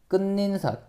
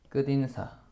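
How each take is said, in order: First: An extra n sound is added before 인사. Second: The final consonant links into 인사, no extra n. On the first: The speaker calls it wrong. "끝인사가 아니라" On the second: The speaker calls it right. "뭐야?"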